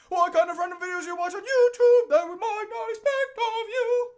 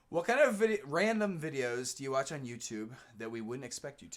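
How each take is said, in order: First: It is read in an operatic voice. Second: It is read in a normal speaking voice.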